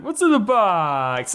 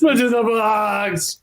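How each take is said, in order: First: Slow dramatic quote of the famous line; movie line quote. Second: Slow, hushed echo of the famous line; movie line quote. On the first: Host savoring the movie line, slow and dramatic. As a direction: draw it out like the film scene. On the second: Actor echoing the host's line, slow and dramatic. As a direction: say it slowly, savoring the memory. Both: Retold or imitated.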